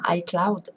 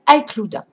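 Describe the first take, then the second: First: It is said with a smoother, polished accent. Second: It is said with a clumsy, heavy accent. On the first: The speaker calls it right. "ce sera plus joli" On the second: The speaker calls it wrong. "j'ai un accent pourri"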